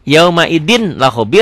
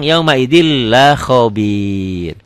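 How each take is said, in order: First: "Yaumaidin la" with a clear N; N as written. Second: Very slow "Yaumaidil la khobir", doubled L; N gone. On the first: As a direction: keep "Yaumaidin" closed on its N. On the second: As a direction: draw out "khobir" after joining "Yaumaidil la" without N. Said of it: "N-nya jadi hilang". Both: Shown as a demonstration.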